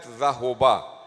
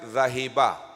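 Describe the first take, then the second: First: The middle vowel is 'u'. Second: The middle vowel is 'i'. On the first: "This is not zahoba" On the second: "This is not zahiba"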